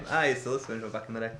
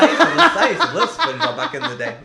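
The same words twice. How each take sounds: First: Lower, softer and fast; throwaway mutter; quiet aside. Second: Higher, louder laughing gush; giddy fan confession; excited. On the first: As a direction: mumble it quickly under your breath. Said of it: "repeats it low and fast". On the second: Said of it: "repeats the line two ways". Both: Shown as a demonstration.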